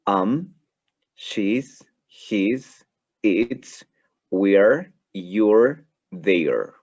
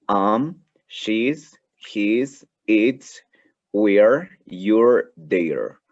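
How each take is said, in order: First: "she's", "we're", "you're" each said short and clipped together, with a lift at the end; contracted forms modelled. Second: "we're" and "you're" said louder on repeat, each a single syllable rising; contractions repeated louder. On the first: Teacher models contractions for class, each form clear. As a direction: run the contractions "we're" and "you're" as single quick syllables. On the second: Teacher drills contractions again for students, louder and clear. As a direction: repeat "she's", "we're", "you're" with more force for the class.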